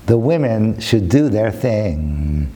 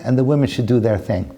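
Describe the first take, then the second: First: Slow and low, stretching the last word; slow, weighty repeat. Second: Said in the usual way. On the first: Real, not acted. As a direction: draw the words out slowly. Repeats line slowly for effect.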